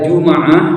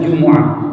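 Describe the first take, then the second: First: The m is followed by an a vowel. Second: The m is followed by a u vowel. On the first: This is the form used in the Tamim dialect. "Kalau dibaca Juma'ah ya dengan fathah mimnya ini lughah Bani Tamim" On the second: This is the form used in the Hijaz dialect. "kalau dibaca dhammah mimnya jumu'ati wa hiya lughatul Hijaz"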